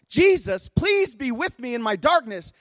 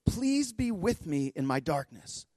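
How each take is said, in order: First: Very high, strained retold prayer; impassioned imitated pleading. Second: Slow, soft plea pitched higher; quiet retold plea. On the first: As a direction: cry out her prayer, pitched far up. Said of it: "she's pleading with Jesus". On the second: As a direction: pray it softly and slowly, quoting her. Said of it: "she says it over and over".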